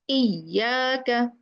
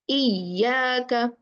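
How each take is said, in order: The two takes are said the same way.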